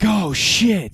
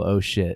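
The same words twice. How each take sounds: First: It sounds alarmed and dramatic. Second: It sounds plain and casual.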